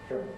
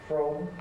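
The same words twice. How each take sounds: First: The word is said with a reduced vowel. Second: The word is said with a full vowel. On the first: "a weak pronunciation" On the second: "a strong pronunciation"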